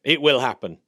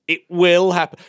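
First: Said in the usual way. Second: Higher and louder, stress on will; louder, higher firm promise; emphatic repeat. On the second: Real, not acted. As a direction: insist it, punching will.

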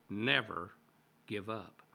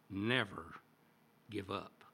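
First: NEVER hit louder, with the fall on give; bolder. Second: Said in the usual way. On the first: Retold or imitated. Churchill pressing the schoolboys harder, stress on NEVER. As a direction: lean hard on Never, bolder than the first take. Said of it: "he continued even more boldly". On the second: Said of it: "and then he said three words".

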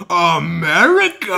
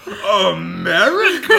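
First: Loud, high, slow drawn-out question; incredulous America. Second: High, slow, drawn-out amazed question; incredulous America. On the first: Outback mechanic hearing America, loud amazed question. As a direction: stretch it in amazement. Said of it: "And he's like". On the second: Retelling the mechanic's phrase, loud amazed question. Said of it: "I still think of that phrase". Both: Retold or imitated.

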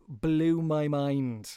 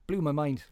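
First: Blew my mind stretched out very slowly; slow emphatic repeat. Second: Said in the usual way. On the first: Real, not acted. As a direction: drag out Blew my mind, leaning on Blew.

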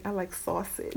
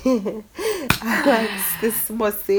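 First: Said in the usual way. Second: Very slow, savoring delivery; playfully drawn out. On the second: Pretend. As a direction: stretch out "I like this sausage" suggestively. Jokey drawn-out repeat after laughing.

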